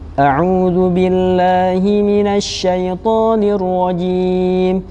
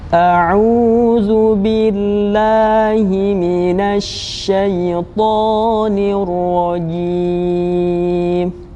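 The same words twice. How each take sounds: First: It is recited at a medium pace. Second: It is recited very slowly and calmly. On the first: "bacaan yang sedang, tidak terlalu cepat dan tidak terlalu lambat" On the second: "lebih tenang dan perlahan-lahan"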